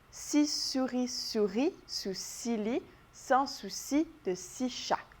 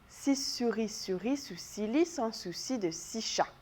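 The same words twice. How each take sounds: First: The sentence is said very slowly. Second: The sentence is said quickly. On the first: "On va l'essayer ensemble bien lentement" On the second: "On en fait un autre un petit peu plus vite encore une fois"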